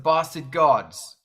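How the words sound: It is said in an English accent. "in England, it's the ba- it's it's the Bastard Gods. I can't say it very well"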